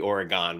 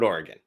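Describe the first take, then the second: First: The last syllable is a full 'gone' sound. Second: The last syllable is quick and reduced. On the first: The speaker calls it wrong. "if it was O R E G O N E, maybe Oregon would make sense" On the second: The speaker calls it right. "Let it roll off your tongue real quick"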